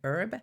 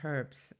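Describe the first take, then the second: First: It is said in an American pronunciation. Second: It is said in a non-American pronunciation. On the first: "I don't know how you say it in the States. I think it's maybe herb" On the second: "I say herbs"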